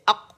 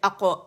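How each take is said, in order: First: The final consonant stops abruptly with no release. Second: The final consonant ends with an echoing bounce. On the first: "आवाज़ सख्ती से जाके कुव्वत के साथ ठहर जाती है, रुक जाती है" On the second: "इसकी शिद्दा को ख़त्म करने के लिए अरब जो है कलकला करते हैं"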